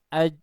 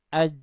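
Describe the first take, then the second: The two takes are said the same way.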